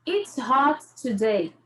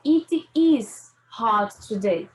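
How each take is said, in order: First: Said in the usual way. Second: Slow, with the "is" stressed and drawn out; full form stressed. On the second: Shown as a demonstration. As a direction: say "It is hot today" slowly, hitting "is". (devagar, com ênfase em "is") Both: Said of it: "É a mesma coisa de dizer".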